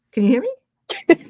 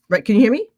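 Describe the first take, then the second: First: Higher, louder, drawn-out call; calling out slowly. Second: Said in the usual way. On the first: Real, not acted. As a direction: stretch it out to reach her. Repeats check, sister on mute.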